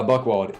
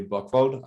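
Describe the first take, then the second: First: Buchwald with an English W sound; American pronunciation. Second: Buchwald with W said as V; German pronunciation. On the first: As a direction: say Buchwald the American way, "buck-wald". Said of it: "but in America". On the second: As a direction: say Buchwald the German way, "bookh-vald". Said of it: "if you're in Germany". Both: Shown as a demonstration.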